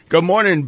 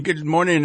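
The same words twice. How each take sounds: First: Louder hammed-up Irish brogue; bad Irish accent. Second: Said in the usual way. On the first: Shown as a demonstration. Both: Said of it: "There it is. My worst".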